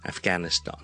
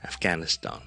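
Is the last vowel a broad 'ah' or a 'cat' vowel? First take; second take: ah; ah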